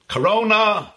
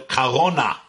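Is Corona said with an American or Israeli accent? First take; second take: American; Israeli. First: It is said with an ordinary American accent. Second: It is said with an Israeli accent.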